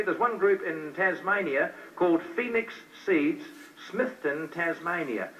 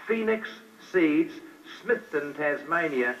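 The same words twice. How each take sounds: First: Said in the usual way. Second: "Phoenix Seeds, Smithton, Tasmania" said word by word with pauses between; spelled-out address. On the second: Shown as a demonstration. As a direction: dictate "Phoenix Seeds, Smithton, Tasmania" slowly so they can write it down. Repeats address slowly for note-taking.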